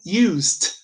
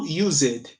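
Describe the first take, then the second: First: Used as one syllable, "yuzd"; correct ED ending. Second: Used in two syllables, "yuz-ed"; mistaken ED ending. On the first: Teacher models the right used, short ending. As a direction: end used with no vowel before the d. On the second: Teacher shows the error in used, over-pronounced ED. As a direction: sound out a full ED on used. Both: Shown as a demonstration. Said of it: "não used".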